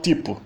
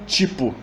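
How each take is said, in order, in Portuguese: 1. É dito com sotaque de Portugal. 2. É dito com sotaque de São Paulo ou do Rio. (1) "E em Portugal" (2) "tanto em São Paulo quanto no Rio"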